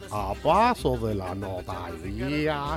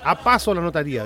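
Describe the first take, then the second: First: It is read slowly. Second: It is read quickly.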